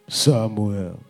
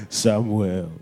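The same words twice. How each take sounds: The two takes are said the same way.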